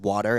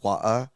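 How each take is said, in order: First: It is said in a plain American accent. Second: It is said in a British accent. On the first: "when she says water" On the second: "She has a British accent with certain things"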